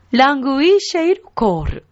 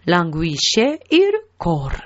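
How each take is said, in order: First: "ラングイシェイルコール" higher-pitched, joined up; repeat-after-me model. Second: "ラングイシェイルコール" evenly, split before "イル" and "コール"; follow-along repeat. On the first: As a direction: lead the learners with a lifted "ラングイシェイルコール". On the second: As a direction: repeat "ラングイシェイルコール" subdued, word by word. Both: Shown as a demonstration. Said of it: "後についてきてくださいね".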